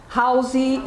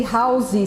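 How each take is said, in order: First: "Housey" with an added final ee sound; Brazilian extra vowel. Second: "housey" said with a final ee; Brazilian extra vowel. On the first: Teacher imitating Brazilian students saying house. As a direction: add a vowel after the s in "Housey". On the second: Teacher mocking how Brazilians say house. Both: Shown as a demonstration. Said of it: "We love to say housey".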